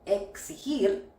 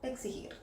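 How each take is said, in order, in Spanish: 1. La x suena como una ks fuerte. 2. La x suena como una gs más suave. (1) "suena como K S" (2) "puede sonar como una G S, es decir, un poco más suave"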